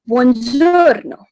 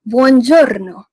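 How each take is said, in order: First: Buongiorno, slow, with the r rolled. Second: Buongiorno with a rolled r, stressed. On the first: Host teaching a formal greeting, buongiorno slow with a rolled r. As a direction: roll the r in buongiorno, drawn out. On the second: Host repeating for listeners, buongiorno with a trilled r. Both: Shown as a demonstration. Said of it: "we are rolling the R's".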